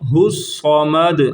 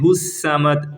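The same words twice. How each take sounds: First: The s sound is heavy and thick. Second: The s sound is light and thin. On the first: The speaker calls it right. "साद को भी हम मोटा पढ़ेंगे" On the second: The speaker calls it wrong. "अब इसको कई सीन पढ़ देते हैं"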